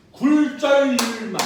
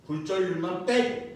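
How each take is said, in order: First: 굴절률만 punched loud and slow; 굴절률만 said loud, drawn out; stress on 굴절률만. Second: Said in the usual way. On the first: Shown as a demonstration. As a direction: hit 굴절률만 hard, slowly.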